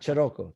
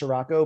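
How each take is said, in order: First: The name is said the Italian way. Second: The name is said the American way.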